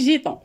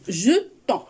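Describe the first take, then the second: First: The first vowel sounds like 'ay'. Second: The first vowel sounds like 'uh'. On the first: The speaker calls it wrong. "ماشي جيتون" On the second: The speaker calls it right. "غنقراوها jetons"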